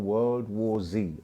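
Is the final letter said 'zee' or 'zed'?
zee. The letter Z is said as zee, American-style.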